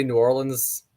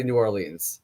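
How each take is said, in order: First: New Orleans said the usual way, New OR-lunz; usual pronunciation. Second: New Orleans said as New Or-LEENS, to rhyme with seems; rhyming pronunciation. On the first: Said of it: "I normally say New Orleans". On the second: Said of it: "so the lean seems rhymes". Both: Shown as a demonstration.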